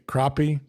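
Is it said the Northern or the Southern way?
Northern. It is said the Northern US way.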